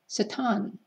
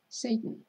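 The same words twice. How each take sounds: First: The word is given a Hebrew pronunciation. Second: The word is given an English pronunciation.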